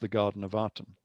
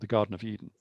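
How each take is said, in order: First: The name begins with an A vowel. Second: The name begins with an E vowel. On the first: The speaker calls it wrong. "we pronounce this with an A" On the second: The speaker calls it right. "the reed glyph is more of an E than an A"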